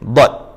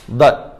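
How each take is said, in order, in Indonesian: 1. Sisi lidah menekan, sehingga bunyinya penuh dan memantul. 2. Sisi lidah tidak menekan, sehingga bunyinya lemah. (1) "Tepi ya" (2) "ni memang tak tepat lah"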